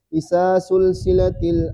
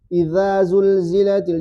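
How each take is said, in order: First: The consonants are said as hissing s sounds. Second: The consonants are said as voiced z sounds. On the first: The speaker calls it wrong. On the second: The speaker calls it right.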